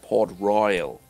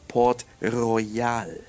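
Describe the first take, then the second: First: It is said with an American English accent. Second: It is said without an American English accent. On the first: The speaker calls it wrong. "like a US American accent" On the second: The speaker calls it right. "it's Port Royal"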